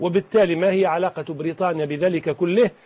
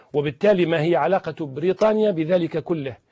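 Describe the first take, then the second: The two takes are said the same way.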